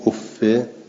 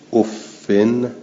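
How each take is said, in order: First: It ends in an i vowel without n. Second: It ends in an i vowel plus n. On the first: "غیر منبن" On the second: "بالکس منبنن"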